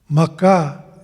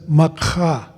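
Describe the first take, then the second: First: The k is plain, with no breathy sound. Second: The k is followed by a breathy h sound. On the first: It means a skunk. The speaker calls it wrong. "Maka is a skunk" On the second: It means the Earth. The speaker calls it right. "there's a little diacritical mark that's put above that K that says Makha"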